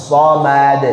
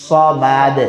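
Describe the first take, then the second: The two takes are said the same way.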